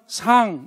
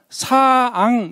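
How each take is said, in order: First: The syllable is said quickly with a rise. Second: The syllable is stretched slowly into two parts. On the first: "빨리 하게 되면 상 이렇게 하면서 올라가는 겁니다" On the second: "사앙 이렇게 해야 되는 거예요"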